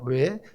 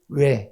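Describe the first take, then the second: First: It is said softly and gently. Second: It is said curtly and abruptly.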